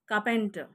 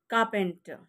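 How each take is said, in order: No difference in how they are said.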